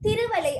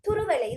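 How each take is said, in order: First: The word begins with a 'thi' sound. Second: The word begins with a 'thu' sound. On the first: This is the colloquial form. The speaker calls it wrong. "அல்ல" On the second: This is the standard form. The speaker calls it right. "சரியான வடிவம்"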